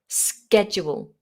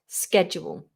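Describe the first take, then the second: First: The word begins with an 'sk' sound. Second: The same.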